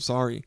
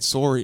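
First: It is said without a Canadian accent. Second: It is said with a Canadian accent.

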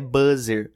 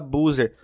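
First: Buzzer is said with English sounds. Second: Buzzer is said with Brazilian Portuguese sounds.

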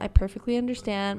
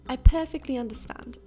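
First: It is said in the speaker's ordinary accent. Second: It is said in a put-on English accent.

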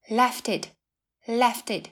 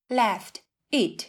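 First: The t runs straight into the following vowel. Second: The t and the following vowel are separate.

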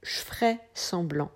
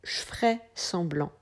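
First: The e vowels in je ferais are dropped. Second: The same.

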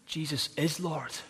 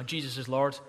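First: It is said earnestly and with conviction. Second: It is said casually and offhandedly.

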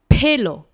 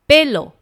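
First: The first consonant has a puff of air. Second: The first consonant has no puff of air. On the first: The speaker calls it wrong. "Pelo 是不正确的发音哦" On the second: The speaker calls it right. "它是b 开头的"

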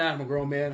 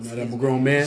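First: It is said in his normal voice. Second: It is said in a put-on deep voice.

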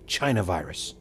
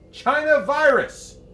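First: It is said at a normal volume. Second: It is screamed at a louder volume.

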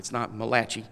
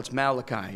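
First: The name is said an Italian-sounding way. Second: The name is said the standard English way. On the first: The speaker calls it wrong. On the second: The speaker calls it right. "No, it's Malachi"

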